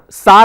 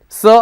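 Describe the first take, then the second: First: The vowel is an open 'ah' sound. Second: The vowel is a central 'er' sound. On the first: The speaker calls it wrong. "Don't pronounce that as Sar" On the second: The speaker calls it right. "it's Sir"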